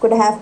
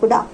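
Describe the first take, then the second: First: The word have is pronounced in full. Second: Have shrinks to a short 'a' sound.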